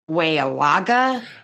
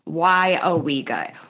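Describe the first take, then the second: First: The name is said in an outsider's mispronunciation. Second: The name is said in the local pronunciation. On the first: The speaker calls it wrong. "This town has been called Weawaga" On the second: The speaker calls it right. "actually, yeah, it is Waiawega"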